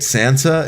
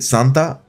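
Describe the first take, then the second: First: It is said with an English pronunciation. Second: It is said with a Spanish pronunciation. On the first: "if you don't read it Santa" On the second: "you read it Santa, it's like uh like a female deity in Spanish"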